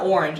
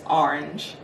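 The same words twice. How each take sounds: First: The first vowel is a plain O sound. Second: The first vowel sounds like an A. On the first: The speaker calls it wrong. "It's not orange apparently" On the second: The speaker calls it right. "like an A"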